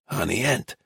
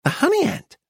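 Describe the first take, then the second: First: Put-on soft, hoarse old man; hushed, reluctant old man's voice; hoarse whisper. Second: High-pitched, full-voiced dealer; saleswoman's raised voice; announcing shopkeeper. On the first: A narrator's reading. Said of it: "whispered in a hoarse voice". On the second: Dealer announces it brightly to customers.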